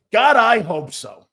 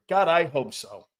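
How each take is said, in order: First: Louder, slower, fervent; a fan begging for a change, louder and slower; emphatic repeat. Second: Said in the usual way. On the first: Real, not acted. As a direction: say it again like you mean it.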